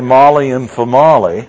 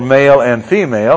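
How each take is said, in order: First: The words sound like 'Molly' and 'Famali'. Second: The words sound like 'mail' and 'fee-mail'. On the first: The speaker calls it wrong. "it does make a difference the way you pronounce words" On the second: The speaker calls it right. "for male and female"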